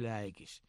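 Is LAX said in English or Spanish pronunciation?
English. It is said with English pronunciation. The speaker calls it right. "es LAX, como se pronuncia en inglés"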